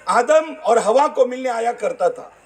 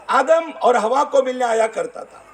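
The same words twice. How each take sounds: The two takes are said the same way.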